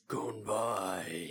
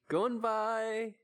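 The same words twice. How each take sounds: First: It is said in a put-on dragon voice. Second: It is said in a normal voice.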